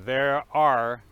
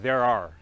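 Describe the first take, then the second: First: The two words are said fully and separately. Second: The two words are reduced and run together.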